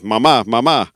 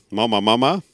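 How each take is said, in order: First: "Mama, mama" stressed on the final syllable, maMÁ; Spanish pronunciation. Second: Said in the usual way. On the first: Shown as a demonstration. Teacher corrects it to Spanish, "Mama, mama" with final-syllable stress. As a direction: say "Mama, mama" the Spanish way, punching each second syllable. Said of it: "in het Spaans eigenlijk beter gezegd". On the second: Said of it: "Of in het Spaans eigenlijk beter gezegd".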